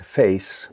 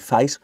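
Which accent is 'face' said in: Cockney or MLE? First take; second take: MLE; Cockney. First: The vowel is a purer A-type sound. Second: The vowel is said in a Cockney way. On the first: "What we find in London now is face, more of an A type sound" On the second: "Cockneys would say face"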